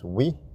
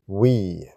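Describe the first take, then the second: First: The vowel is said short. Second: The vowel is drawn out long. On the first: "the waw with the I will give us" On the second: "if it's lengthened, it will become"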